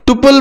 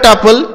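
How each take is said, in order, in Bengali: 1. প্রথম স্বরধ্বনিটি 'oo' এর মতো শোনায়। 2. প্রথম স্বরধ্বনিটি 'uh' এর মতো শোনায়।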